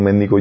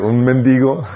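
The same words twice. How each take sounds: First: Mendigo with the stress wrongly off the i; mispronounced mendigo. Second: Mendigo slowly, stress on the i: men-DI-go; careful fix, lean on the i of mendigo; corrected mendigo. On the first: Real, not acted. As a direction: say mendigo stressing the first syllable by mistake. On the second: Shown as a demonstration. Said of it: "debería de tener acento en la I".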